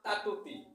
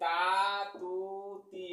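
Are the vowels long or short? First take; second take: short; long. First: The vowels are cut short. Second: The vowels are held long. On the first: The speaker calls it wrong. "মনে করেন যে আপনি এই আলিফটা বাদ দিলেন" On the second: The speaker calls it right. "এই তা তু তি লম্বা হবে"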